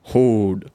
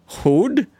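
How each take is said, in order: First: Hode said flat with a falling tune; settled Hode. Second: Hode asked with a rising tune; questioning Hode. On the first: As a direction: land on Hode firmly. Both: Shown as a demonstration. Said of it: "My name is Hode".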